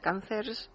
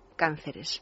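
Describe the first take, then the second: First: The plural is said in an English-sounding way. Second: The plural is said in the normal Spanish way. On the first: The speaker calls it wrong. "esta forma que parece inglesa" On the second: The speaker calls it right. "plural cánceres"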